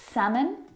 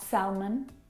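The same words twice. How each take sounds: First: The L sound is silent. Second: The L sound is pronounced. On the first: The speaker calls it right. "Words like salmon, ... have a silent L" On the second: The speaker calls it wrong. "not salmon"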